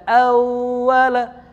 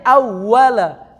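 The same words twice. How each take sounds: First: "awala" with the "au" held too long; wrong, lingering "auuu-wala"; overlong first syllable. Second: "awala" pressed firm on the first syllable; pressed stress on awala. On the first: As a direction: drag out the AU of "awala" before reaching "la". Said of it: "aunya jangan kelamaan". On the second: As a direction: lean hard and loud into the AW of "awala". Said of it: "Ditekan aja". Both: Shown as a demonstration.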